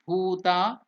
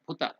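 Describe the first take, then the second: First: The final vowel is held long. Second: The final vowel is held short. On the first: The speaker calls it right. "So it is called Dirgha" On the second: The speaker calls it wrong. "It is not Hrasva"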